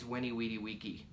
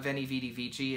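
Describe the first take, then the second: First: The words begin with a W sound. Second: The words begin with a V sound. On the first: The speaker calls it right. "the V's are W's and the C is a K" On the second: The speaker calls it wrong. "Not Veni Vidi Vici"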